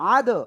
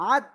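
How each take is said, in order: First: The final d ends with a strong echoing bounce. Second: The final d ends flat, without an echoing bounce. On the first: The speaker calls it right. "ধাক্কা দিয়ে পড়তে হবে" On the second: The speaker calls it wrong. "না এরকম পড়া যাবে না।"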